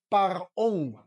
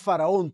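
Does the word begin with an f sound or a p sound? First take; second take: p sound; f sound. First: The word begins with a p sound. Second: The word begins with an f sound. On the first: The speaker calls it right. "tú lees parón" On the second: The speaker calls it wrong. "tú no lees faraón"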